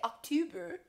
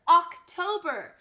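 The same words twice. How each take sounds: First: The second syllable sounds like two. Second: The second syllable sounds like toe. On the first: The speaker calls it wrong. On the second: The speaker calls it right.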